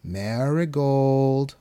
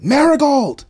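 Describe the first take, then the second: First: Slow, drawn-out eerie croon. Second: Piercing high full-force yell. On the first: Voice calling Marigold from the hallway, crooning. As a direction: croon the name, stretching every syllable. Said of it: "a voice crooned from the hallway". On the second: Refrigerator yelling at Marigold, high violent shout. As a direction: scream the name out, sudden and huge. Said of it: "The refrigerator yelled". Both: A narrator's reading.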